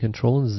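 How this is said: Z is said the Canadian way, 'zed'.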